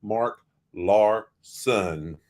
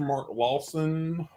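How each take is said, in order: First: "Larson" slowly, syllable by syllable; very slow, lower-pitched "Larson" with a clear r; careful correction. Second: "Lawson" with the r dropped; "Lawson" run together, no r; country pronunciation. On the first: Shown as a demonstration. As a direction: spell out "Larson" by sound, Lar, then son. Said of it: "I keep saying Law". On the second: Real, not acted. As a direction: say "Lawson" as a country slip for Larson. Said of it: "That's my country accent".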